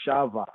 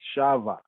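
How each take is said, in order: Both takes have the same delivery.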